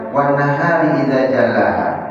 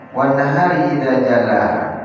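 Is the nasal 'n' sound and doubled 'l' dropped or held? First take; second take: dropped; dropped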